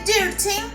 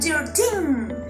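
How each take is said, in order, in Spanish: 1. El acento está en la primera sílaba. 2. El acento está en la última sílaba. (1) "no vamos a decir thirteen" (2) "sino thirteen. Hacer como una acentuación en las últimas partes"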